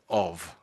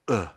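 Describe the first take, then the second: First: The word is said in full with its consonant. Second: The word is reduced to a short schwa grunt. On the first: "rather than of" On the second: "I might say uh rather than of"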